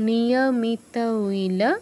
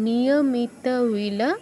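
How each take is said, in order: No difference in how they are said.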